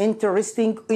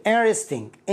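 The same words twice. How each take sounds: First: "interesting" with the T heard; sounded T. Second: "interesting" with the T softened away; light T. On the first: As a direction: say "interesting" as IN-tris-ting. (نطق "interesting" بتاء مسموعة) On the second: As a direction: say "interesting" as IN-er-esting, T barely there. (نطق "interesting" بتاء خفيفة جدًا) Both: Shown as a demonstration. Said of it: "التي فيها يكون خفيف".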